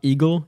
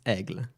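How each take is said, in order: First: The name sounds like the English word eagle. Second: The name sounds like French aigle, one syllable. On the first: The speaker calls it wrong. "It's not eagle" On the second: The speaker calls it right. "It's Aigle"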